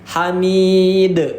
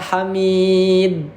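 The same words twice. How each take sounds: First: The final d is released with an echoing bounce. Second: The final d is cut off without a bounce. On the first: The speaker calls it right. "Harus ada pantulannya" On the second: The speaker calls it wrong. "Gak boleh dibaca Hamid"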